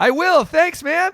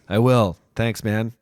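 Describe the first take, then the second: First: It is said with more enthusiasm. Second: It is said flatly, without enthusiasm.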